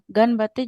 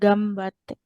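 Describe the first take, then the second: First: The nasal before b is an n. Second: The nasal before b is an m. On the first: The speaker calls it wrong. "Penulisan tidak berubah" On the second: The speaker calls it right. "kalau pengucapan yang benar itu gambate"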